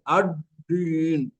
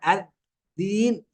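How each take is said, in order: First: The d is made with the tongue pulled back. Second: The d is made with the tongue between teeth. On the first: "ولا نضعها في الداخل" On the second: "لا نضع اللسان بين الأسنان"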